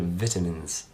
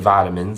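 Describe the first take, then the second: First: The word is said in a British way. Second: The word is said in a non-British way. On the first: "I'm from the U K. ... I say vitamins" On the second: "I don't say vitamins"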